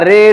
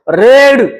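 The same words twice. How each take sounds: First: The final d is said lightly. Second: The final d is pushed out heavily. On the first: The speaker calls it right. "शब्दाच्या शेवटी डी आल्यास त्याचा उच्चार थोडा हलका होतो" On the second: The speaker calls it wrong. "आपण जास्त जोर देतोय का रेड रीड असं म्हणतोय का तर नाही"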